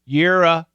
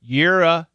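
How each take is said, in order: Both takes have the same delivery.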